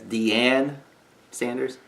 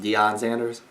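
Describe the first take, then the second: First: The first name ends in an 'ann' sound. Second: The first name ends in an 'on' sound. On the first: The speaker calls it wrong. "I believe he pronounced it as" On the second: The speaker calls it right. "he had a real difficult time saying"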